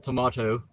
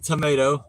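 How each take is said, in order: First: It is said in a British accent. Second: It is said in an American accent.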